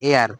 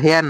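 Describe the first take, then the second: First: The word starts with a vowel sound. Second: The word starts with an h sound. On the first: The speaker calls it right. "এটার উচ্চারণ হবে হচ্ছে এয়ার" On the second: The speaker calls it wrong. "এটা কিন্তু হেয়ার না"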